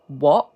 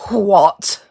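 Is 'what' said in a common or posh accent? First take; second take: common; posh. First: It is said in a common accent. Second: It is said in a posh accent. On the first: "a common what" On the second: "R P posh what"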